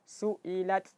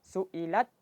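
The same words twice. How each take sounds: First: Breath is released audibly after the t. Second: Voice and breath are both held at the t. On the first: "kemudian baru dialirkan" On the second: "suara dan nafasnya ditahan"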